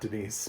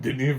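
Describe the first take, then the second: First: The name ends with a z sound. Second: The name ends without a z sound. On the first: The speaker calls it wrong. "his name is not Denise" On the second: The speaker calls it right. "I love saying Denis Villeneuve"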